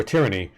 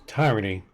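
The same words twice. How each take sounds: First: Said in the usual way. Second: Tyranny with first syllable like tie; tyranny with a long i up front; alternate pronunciation. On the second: Shown as a demonstration. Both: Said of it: "tyranny or tyranny".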